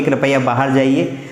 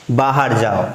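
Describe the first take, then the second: First: Softened request with rising end; courteous please, gentle rise; polite request. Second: Blunt order, lower; curt command. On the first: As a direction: ask kindly, not order. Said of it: "आप बोलोगे". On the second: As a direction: snap it as a command. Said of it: "सीधा भगाओगे तो बुरा लग जाएगा". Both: Shown as a demonstration.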